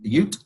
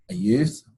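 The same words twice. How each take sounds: First: Ute said as yoot, no th at the end; Ute like Cousin Vinny. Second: Youth said with a clear th ending; youth, said normally. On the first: Teacher mimics the Cousin Vinny pronunciation, yoot. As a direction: drop the th so youth becomes yoot. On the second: Teacher corrects the word to youth. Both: Shown as a demonstration. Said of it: "That's how they say it".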